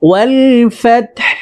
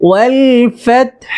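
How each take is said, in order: The two takes are said the same way.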